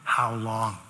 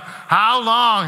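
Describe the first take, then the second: First: Much lower and softer, fading; final quiet ask. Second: Higher, louder lament; crying out. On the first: Preacher saying the final how long, low and soft. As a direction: let it die away, last time. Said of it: "prayed for the very final time". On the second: Preacher voicing the psalmist's loud cry. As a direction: cry it to heaven. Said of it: "Four times there, the psalmist is crying out". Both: Shown as a demonstration.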